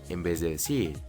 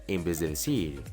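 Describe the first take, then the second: No difference in how they are said.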